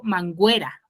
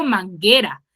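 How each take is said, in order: First: "manguera" said as mangüera, the u sounded as a w; "manguera" mispronounced on purpose with a w sound; wrong mangüera. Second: Said in the usual way. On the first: Shown as a demonstration. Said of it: "Yo digo manguera". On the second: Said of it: "en ningún momento digo manguera".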